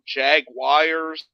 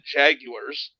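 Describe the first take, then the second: First: It is said in two syllables, like 'jag-wire'. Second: It is said in three syllables, like 'jag-you-ar'. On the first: This is how some fans say it. "Some of these idiots call them" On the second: This is how people in Britain say it. "people in Britain call them the"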